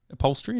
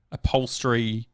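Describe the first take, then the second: First: "Upholstery" with a questioning rise at the end; unsure of word. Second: Said in the usual way. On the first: Real, not acted. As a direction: say "Upholstery" as if checking it's the word. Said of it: "is that the word?".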